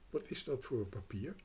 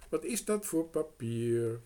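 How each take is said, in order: First: Said in the usual way. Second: Louder, stressing dat; louder girl pressing on dat; insistent repeat. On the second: A narrator's reading. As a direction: ask again, impatient now.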